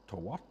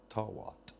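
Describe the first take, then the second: First: "Twat" in a light mock Chinese accent, rising at the end. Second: Said in the usual way. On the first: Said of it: "twat in a Chinese accent". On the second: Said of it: "Sounds like the word twat".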